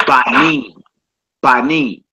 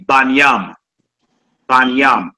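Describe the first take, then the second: First: Banim said bah-NEEM; plural pronunciation. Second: Banyam said bahn-YAHM; vowelless-style pronunciation. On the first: Teacher showing the plural, Banim as bah-NEEM. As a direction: stretch the long EE in "Banim". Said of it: "How you say that in the plural form". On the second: Teacher showing how other brothers say it, Banyam as bahn-YAHM. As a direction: end "Banyam" on an open YAHM. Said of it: "You hear brothers that don't use vowels". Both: Shown as a demonstration.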